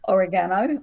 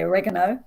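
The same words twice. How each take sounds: First: It is said with a non-American pronunciation. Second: It is said with an American pronunciation.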